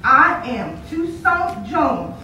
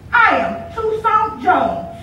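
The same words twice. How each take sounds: First: Slow, deliberate boast; a hint of a proud boy, every word spaced; boy repeating his name, slowly proud; lightly voiced proud boy. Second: Slow, chest-out declaration; a touch of swagger, words spaced; boy insisting on his name to the girl; lightly voiced boasting boy.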